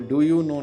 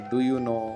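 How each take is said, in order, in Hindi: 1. सामान्य तरीके से, कठोर मूर्धन्य ड ध्वनि के साथ बोला गया। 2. रूसी लहजे में, नरम दंत्य ड ध्वनि के साथ बोला गया। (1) "वो डू यू नो नहीं बोलेंगे" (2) "इस तरीके से उनका टोन आता है"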